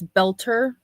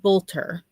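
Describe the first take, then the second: First: The first vowel sounds like in 'bell'. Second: The first vowel sounds like in 'bolt'. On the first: This is believed to be the real pronunciation. The speaker calls it right. "but I think it's Belter" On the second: This is how the name was said before. The speaker calls it wrong. "I was saying Bolter"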